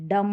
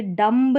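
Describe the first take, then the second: First: डम ending on m, no b; silent b. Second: डम्ब slow, final b wrongly sounded; mispronounced डम्ब. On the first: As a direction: close डम on the m. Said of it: "ये डम्ब नहीं". (डम, बिना ब के) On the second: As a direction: stretch डम्ब and voice its b. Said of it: "डम होगा". (डम्ब में ब बोलकर धीमा ग़लत उच्चारण) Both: Shown as a demonstration.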